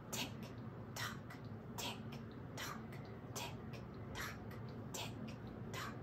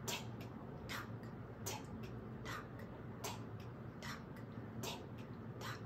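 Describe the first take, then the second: First: Said in the usual way. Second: Breathy whispered tick-tock, clock-like. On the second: Pretend. Singer whispers the clock ticking to children.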